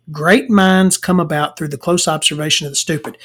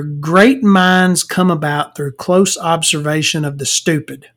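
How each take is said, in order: First: Said in the usual way. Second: Slow, drawn-out maxim with GREAT stressed; measured reading. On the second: Real, not acted. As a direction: read the written saying out slowly. Reading out his written maxim.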